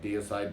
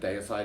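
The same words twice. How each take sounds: First: The name is said with a different, non-Australian pronunciation. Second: The name is said with an Australian pronunciation. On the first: This is how other people say it. "Other people say" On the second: This is how the speaker personally says it. "I'm originally from Australia, so that's how I pronounce it"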